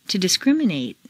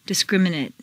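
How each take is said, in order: First: "discriminate" ending in long "-NATE"; full A ending. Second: "Discriminate" ending in weak "-nut"; reduced ending. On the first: Teacher models verb "discriminate" with full final A. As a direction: open out the last A of "discriminate". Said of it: "it's a full A sound". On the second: Teacher models adjective "Discriminate" with reduced final vowel. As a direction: shrink the last vowel of "Discriminate". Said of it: "completely reduced". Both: Shown as a demonstration.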